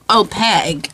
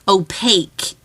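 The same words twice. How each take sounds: First: The last syllable does not rhyme with cake. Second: The last syllable rhymes with cake. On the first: The speaker calls it wrong. "I know I say it wrong" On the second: The speaker calls it right. "It's supposed to be opaque. Like cake"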